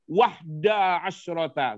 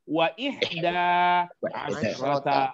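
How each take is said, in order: First: The 'wa' runs straight into 'hda'. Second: The 'i' after 'wa' is said separately. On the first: The speaker calls it wrong. "Nggak boleh wahda asyrata" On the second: The speaker calls it right. "Harus wa ihda asyrata talibatan"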